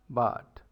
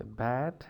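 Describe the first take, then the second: First: BUT as bat with a wide-open, lowered A; open Canadian vowel. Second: BAT with a closer, fronted "a" as in cat; American short A. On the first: Teacher showing Canadian short A, open vowel in BUT. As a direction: open the mouth more for BUT, nearer "baht". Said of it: "you open your mouth more". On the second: Teacher comparing with American, front A in BAT. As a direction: say BAT the American way, less open A. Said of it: "as compared to American". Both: Shown as a demonstration.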